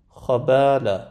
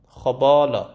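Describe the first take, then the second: First: خبالا with only the خ heavy, با light; heavy خ, then switch to a thin front vowel on با in خبالا; correct light BA. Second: خبالا with the با coloured dark by the خ; mispronounced heavy BA. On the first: («خبالا» با الفِ نازک بعد از خ) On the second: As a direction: carry the heaviness of خ into a backed با in خبالا. («خبالا» با بای درشت، به اشتباه) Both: Shown as a demonstration.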